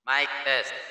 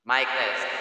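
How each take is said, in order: First: The voice has a clear announcer-style sound. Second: The voice has a karaoke-style echo. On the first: "Then next natin yung Anchor" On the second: "Ito guys yung parang mas exclusive yung KTV"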